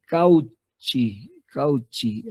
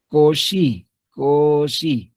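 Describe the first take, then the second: First: Cauchy said letter by letter as written, "kau-chi"; spelling pronunciation. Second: Cauchy said the French way, "ko-shi"; correct pronunciation. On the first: Teacher showing students how the name is written, spelled out "kau-chi". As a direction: read Cauchy as spelled, with a hard "ch". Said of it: "que se escribe así". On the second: Teacher telling students how the name is really said, "ko-shi". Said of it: "pero se pronuncia". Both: Shown as a demonstration.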